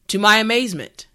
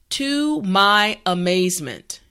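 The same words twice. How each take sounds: First: The phrase is said at normal speed. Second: The phrase is said slowly and carefully. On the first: "now let's say it at a normal pace" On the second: "repeat after me"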